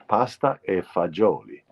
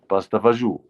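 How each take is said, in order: First: The last word is said in full, ending in -oli. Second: The last word is clipped short, ending in -oo.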